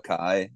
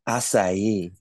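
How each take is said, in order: First: The middle consonant is said as a K. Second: The middle consonant is said as an S. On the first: The speaker calls it wrong. "I always call it a, a kai" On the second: The speaker calls it right. "they're so like bitchy about it"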